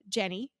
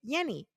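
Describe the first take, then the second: First: The name is said with English sounds. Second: The name is said with Spanish sounds. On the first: "My mother's name is uh" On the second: "they say Yenny"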